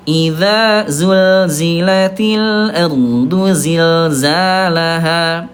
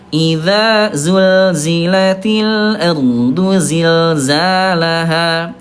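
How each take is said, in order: First: The repeated consonants are a voiced z sound. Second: The same.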